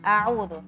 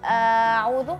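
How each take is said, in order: First: The word is said short without stretching. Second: The word is stretched out and drawn long. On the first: The speaker calls it right. "cukup seperti itu" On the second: The speaker calls it wrong. "Jangan ... enggak boleh mengaret-ngaret"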